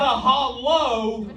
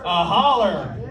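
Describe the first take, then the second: First: Said as standard 'hollow', ending in 'oh'. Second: Said as Southern Ohio 'holler', ending in 'er'.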